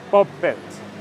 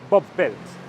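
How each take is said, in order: The two takes are said the same way.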